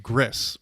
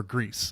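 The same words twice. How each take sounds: First: "Gris" with a short i, rhyming with "miss"; short-vowel pronunciation. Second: "Grease" with a long ee; long-vowel pronunciation. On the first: Podcaster unsure of a game's name, short-i pronunciation of "Gris". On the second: Podcaster offering co-hosts another guess, long-ee pronunciation of "Grease". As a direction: say "Grease" rhyming with "fleece". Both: Real, not acted. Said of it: "don't know how to pronounce that".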